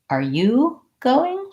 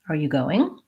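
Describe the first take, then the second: First: The word 'you' is stressed with a rise. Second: The word 'you' is not specially stressed. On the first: The speaker is going and wants to know about the listener. "So then I have stress on you, which means my rise up is going to be there" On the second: Simply asking about attendance at an event. "Standard intonation"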